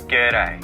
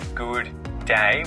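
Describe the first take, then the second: First: The words are squeezed into one short syllable. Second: Both words are said fully and separately. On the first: The speaker calls it right. "we say g'day" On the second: The speaker calls it wrong. "We would never say good day when greeting someone"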